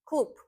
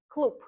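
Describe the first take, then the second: First: The final consonant is a voiceless p. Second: The same.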